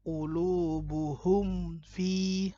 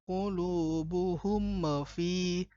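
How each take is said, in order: First: The m sound is held clearly and pressed. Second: The m sound bounces off with a release. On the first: The speaker calls it right. "Betul-betul mimnya itu jelas mim tekan" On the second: The speaker calls it wrong. "jangan sampai ... memantul"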